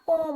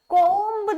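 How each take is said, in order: First: The word ends on m with no b. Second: The word ends with an audible b sound. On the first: The speaker calls it right. "कोम होता है" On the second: The speaker calls it wrong. "कोम्ब नहीं होता"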